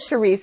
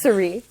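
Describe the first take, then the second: First: The name begins with an sh sound. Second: The name begins with an s sound. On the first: The speaker calls it wrong. "You said Sharice" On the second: The speaker calls it right. "it's Cerise"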